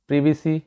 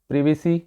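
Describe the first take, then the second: No difference in how they are said.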